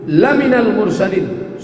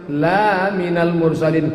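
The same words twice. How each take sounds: First: The vowel after the first L is short. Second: The vowel after the first L is long. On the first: You are truly a messenger. The speaker calls it right. "Lam itu kalau dibaca pendek artinya sungguh" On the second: You are not a messenger. The speaker calls it wrong. "Tapi kalau dibaca panjang"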